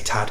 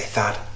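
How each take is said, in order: First: The name starts with a plain T sound. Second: The name starts with a TH sound. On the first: "I'm going to say Tad because I'm not very good with T H sounds" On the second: "I've heard people say Thad"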